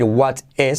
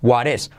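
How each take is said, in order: First: What is with a crisp t; the word-by-word mistake; wrong what is. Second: Linked correct what is; right what is. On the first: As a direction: separate t in what is. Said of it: "no vamos a decir what is". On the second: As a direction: flap the t of what into is. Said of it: "sino what is". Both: Shown as a demonstration.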